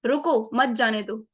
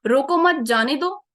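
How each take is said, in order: First: "रुको", comma break, then "मत जाने दो" together; pause after रुको. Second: "रोको मत" as one loud phrase, then "जाने दो"; pause after मत. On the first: Trainer repeats for comparison, pause after "रुको". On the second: Trainer repeats for comparison, pause after "मत". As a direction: push "रोको मत" out together, break, "जाने दो". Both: Shown as a demonstration. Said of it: "just एक comma का difference है".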